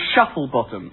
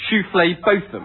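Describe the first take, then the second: First: The name is said in its plain everyday way. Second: The name is said with an altered, fancy pronunciation. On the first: The name as it is written in the directory. "there are people in the phone directory called Shuffle Bottom" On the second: The owners use it to avoid being mocked for the name. "they will always insist on their name actually being Shufflé Botham"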